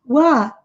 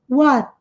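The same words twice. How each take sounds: The two takes are said the same way.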